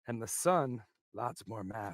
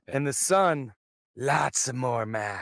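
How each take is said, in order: First: It is read plainly, with little feeling. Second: It is read with much more feeling.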